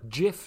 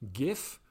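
First: It begins with a different sound than 'gift'. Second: It begins with the same sound as 'gift'. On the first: "Maar je kunt ook gif zeggen" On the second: "ook naar analogie van gift bijvoorbeeld"

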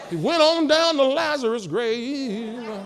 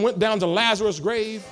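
First: It is said in a Baptist preacher's style. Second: It is said in a plain speaking voice.

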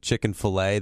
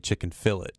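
First: The final t of fillet is silent. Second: The final t of fillet is pronounced. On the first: The speaker calls it right. "instead of chicken fillet" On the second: The speaker calls it wrong. "they say chicken fillet"

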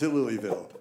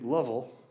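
First: The name is said with three full syllables. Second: The name is squeezed into two short syllables. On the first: This is how an outsider reads the name. The speaker calls it wrong. "I didn't know what Louisville was" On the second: This is how locals really say the name. The speaker calls it right. "I didn't know it was really Lovell"

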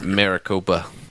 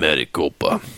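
First: It is said in an ordinary speaking voice. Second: It is said in a special put-on voice.

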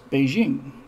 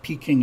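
First: The newer pronunciation closer to the Chinese. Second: The older anglicized pronunciation of the city name. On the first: This is the name used now. The speaker calls it right. "it's Beijing" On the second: This is the name used in the past. The speaker calls it wrong. "it's not Peking"

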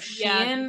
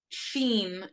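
First: The word is said without a plain 'ee' vowel. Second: The word is said with a plain 'ee' vowel.

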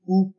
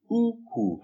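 First: The tones are high then high. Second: The tones are high then low. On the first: It means big. "when it's high tone and high tone. Same tone twice" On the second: It means waist. "High tone and low tone"

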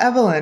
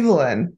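First: The name is said the non-British-masculine way. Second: The name is said the British masculine way. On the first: "what about Evelyn?" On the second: "that's quote unquote mask like pronunciation is for like that name in the UK"

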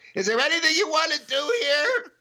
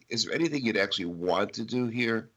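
First: It is said in a panicky tone. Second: It is said in a calm tone.

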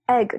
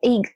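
First: It is said with a standard accent. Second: It is said with a New Zealand accent.

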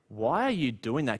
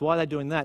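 First: It sounds surprised and incredulous. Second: It sounds puzzled and confused.

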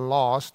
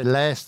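First: The word has a South African vowel sound. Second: The word has an American vowel sound. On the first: This is how South Africans say it. "instead of last" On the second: This is how Americans say it. "you say last"

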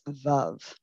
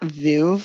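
First: The word is said in a French-sounding way. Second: The word is said in a familiar anglicized way. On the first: The speaker calls it right. "it's Veuve" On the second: The speaker calls it wrong. "it's not Veuve like we've been saying"

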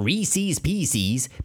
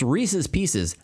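First: Reese's ends in a long 'ease'-like syllable. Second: Reese's ends in a short, unstressed 'us'-like syllable. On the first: The speaker calls it wrong. "not Reese's Pieces" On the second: The speaker calls it right. "It's Reese's Pieces"

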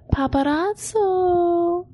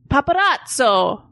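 First: It is said in a slow, seductive tone. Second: It is said in a light, friendly greeting tone. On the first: The speaker is flirting. "You're being seductive" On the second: The speaker is greeting someone. "You're saying hi"

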